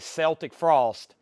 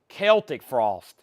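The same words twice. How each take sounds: First: Celtic begins with a soft S sound. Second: Celtic begins with a hard K sound. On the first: "I used to say Celtic Frost" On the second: "It's K"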